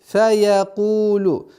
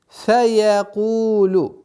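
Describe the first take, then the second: No difference in how they are said.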